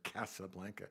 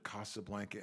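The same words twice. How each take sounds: First: The name has an American pronunciation. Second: The name has a non-American, original pronunciation. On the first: The speaker calls it wrong. "That's not how you pronounce it, but that's what we say in America" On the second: The speaker calls it right. "I'm gradually moving over to Casablanca in my pronunciation"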